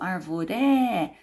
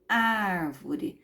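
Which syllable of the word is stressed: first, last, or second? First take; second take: last; first. First: The stress is on the last syllable. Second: The stress is on the first syllable. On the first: The speaker calls it wrong. "nem falo arvoré" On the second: The speaker calls it right. "eu falo árvore. Não é a última, não é a penúltima, é a antepenúltima"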